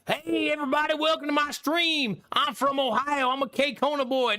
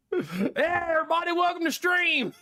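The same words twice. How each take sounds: First: Higher, hammed-up bubbly intro; a lightly voiced fake stream greeting, teasing Drongo; mock streamer voice. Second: Put-on K-Kona accent done for a gift of five subs, laughing through it. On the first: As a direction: play a cheesy welcoming streamer. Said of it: "What do you want me to talk like?". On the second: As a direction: give viewers a laughing K-Kona accent greeting. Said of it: "I wanna hear the K-Kona accent".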